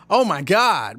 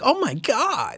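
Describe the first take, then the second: First: It is said plainly, without sweetness. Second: It is said in a sweet way.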